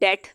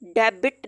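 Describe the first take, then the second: First: No 'b' sound is heard in the middle. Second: A 'b' sound is heard in the middle. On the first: The speaker calls it right. "अब हम इसको कह रहे हैं" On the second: The speaker calls it wrong. "नहीं"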